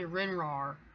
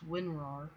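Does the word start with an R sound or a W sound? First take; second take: R sound; W sound. First: The word starts with an R sound. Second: The word starts with a W sound. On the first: The speaker calls it wrong. "I always say RinRAR" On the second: The speaker calls it right. "It's WinRAR"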